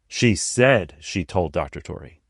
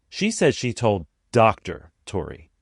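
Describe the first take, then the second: First: The stress falls on the word said. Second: The stress falls on the word doctor. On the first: She did not really say it. "implying that she didn't actually say it" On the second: He is not a real doctor. "air quotes, or smirky face, as if he's not an actual doctor"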